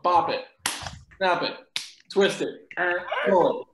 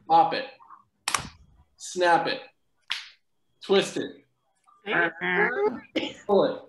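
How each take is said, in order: First: It is said more quickly. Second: It is said at a normal pace.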